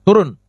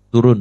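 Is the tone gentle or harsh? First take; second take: harsh; gentle. First: It is said loudly and harshly. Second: It is said softly and gently. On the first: This is a stern warning after gentle words failed. "peringatan lebih keras" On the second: This is a kind, gentle reminder. "Waktu dia bersuara lembut begitu"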